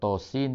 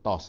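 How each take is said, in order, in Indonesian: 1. Setiap nama huruf diucapkan sendiri-sendiri. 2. Huruf-huruf digabung menjadi satu kata pendek. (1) "kalau Tasin tu" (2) "kita tak baca tos"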